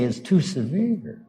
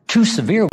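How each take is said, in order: First: Said in the usual way. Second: TOO lifted high on a rise; stress on TOO. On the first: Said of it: "we say". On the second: Shown as a demonstration. Preacher teaching the congregation the phrase, TOO stressed. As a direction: lean up on the word "Too" in "Too severe". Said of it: "we say, is too severe".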